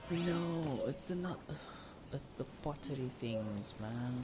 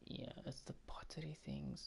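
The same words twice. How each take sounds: First: Frustrated outburst. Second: Soft defeated whisper; resigned whisper. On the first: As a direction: yell it out in frustration. Frustrated at a game quest. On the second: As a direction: breathe it out in resignation. Resigned after the outburst. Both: Real, not acted.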